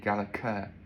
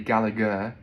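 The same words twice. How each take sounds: First: The name is said the Scottish way. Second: The name is said the English way. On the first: "in Scotland I believe it would be Gallagher" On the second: "in England it would be Gallagher"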